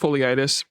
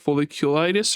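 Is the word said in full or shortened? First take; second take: shortened; full. First: The word is shortened, with syllables dropped. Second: The word is said in full, every syllable. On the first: The speaker calls it wrong. "I keep pronouncing it as foliitis because my mouth doesn't want to work" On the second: The speaker calls it right. "but it's like folliculitis or something like that"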